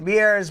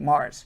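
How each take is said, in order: First: The vowel sounds like the one in 'ears'. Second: The vowel sounds like the one in 'cars'. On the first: The speaker calls it wrong. "for those who don't know my thick New York accent, I say Mears" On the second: The speaker calls it right. "but it's actually Mars"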